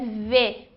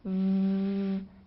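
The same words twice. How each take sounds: First: The consonant is followed by a vowel. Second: The consonant is buzzed alone without a vowel. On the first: It names the letter. "O nome da letra é V" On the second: It is the sound the letter stands for. "sem pronunciar a vogal"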